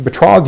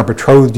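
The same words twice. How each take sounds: First: "betrothed" with an aw vowel in the second syllable; first pronunciation. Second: "betrothed" with a long o in the second syllable; alternative pronunciation. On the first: Preacher reading the verse to the church, "betrothed" said with an aw vowel. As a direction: say "betrothed" as be-TRAWTHED. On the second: Preacher showing how some pronounce it, "betrothed" with a long o. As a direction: say "betrothed" as be-TROHTHED. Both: Shown as a demonstration. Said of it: "as some pronounce it".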